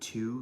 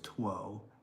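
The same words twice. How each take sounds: First: The word is said without a W sound. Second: The word is said with a W sound. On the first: This is the modern pronunciation. "like the number two" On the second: This is how it was said centuries ago. "when you pronounced that W"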